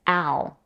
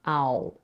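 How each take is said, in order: First: The lips stay unrounded for the L. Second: The lips are rounded for the L. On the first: The speaker calls it right. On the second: The speaker calls it wrong. "not ... this can make it sound like a W"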